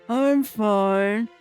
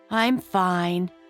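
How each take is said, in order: First: It is said muffled, as if mouth full. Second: It is said in a clear voice.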